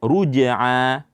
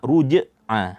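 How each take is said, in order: The two takes are said the same way.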